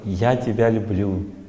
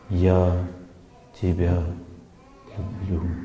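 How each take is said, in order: First: It is said simply, in a plain manner. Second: It is said deeply, with warm, heartfelt feeling. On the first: It is better but still lacks depth. The speaker calls it wrong. "говорит просто «я тебя люблю», опираясь на свое настроение внутреннее" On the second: It comes from the heart. The speaker calls it right. "он опирается на память и говорит «я тебя люблю». Чувствуете, да?"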